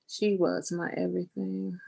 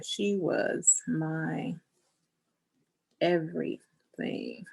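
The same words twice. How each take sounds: First: Said in the usual way. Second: Slow dictation. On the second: Real, not acted. Writing words about her late mom.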